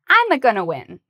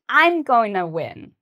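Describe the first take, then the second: First: There is an extra 'a' sound added before 'gonna'. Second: There is no extra sound added before 'gonna'. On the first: The speaker calls it wrong. "again, it's that A sound" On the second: The speaker calls it right. "get rid of this extra sound. Just say"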